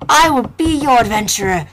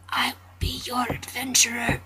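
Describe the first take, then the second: First: Louder, proud declaration; declaring. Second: Whispered vow. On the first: Player boldly promising to be the adventurer, declaring. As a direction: proclaim it boldly. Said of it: "repeated loud". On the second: Player quietly promising to be the adventurer, whisper. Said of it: "repeated then loud". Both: Shown as a demonstration.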